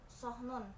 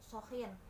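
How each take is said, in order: First: No vowel comes after the h sound. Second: An extra vowel is added after the h sound. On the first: The speaker calls it right. "kata sohnun yang artinya adalah piring" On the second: The speaker calls it wrong. "menambahkan huruf vokal"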